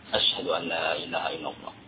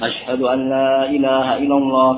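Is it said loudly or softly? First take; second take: softly; loudly. First: It is said softly. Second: It is said loudly.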